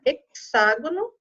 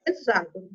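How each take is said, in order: First: "hexágono" with X said as KS. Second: "hexágono" with X voiced as Z. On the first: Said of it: "ou de X". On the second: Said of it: "de Z". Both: Shown as a demonstration.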